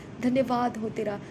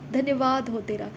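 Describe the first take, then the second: No difference in how they are said.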